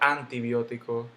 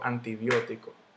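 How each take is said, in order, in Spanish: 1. La tónica cae en otra sílaba. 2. La tónica cae en la antepenúltima sílaba. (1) "yo no digo antibiótico" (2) "yo digo antibiótico"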